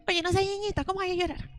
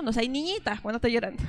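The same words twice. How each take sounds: First: Higher-pitched, put-on chiding; mock scolding adult. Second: Said in the usual way. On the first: Adult tells a crying boy not to be girly, mock scolding. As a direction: imitate someone shaming a child in a higher voice. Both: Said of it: "cómo le dicen a los niños".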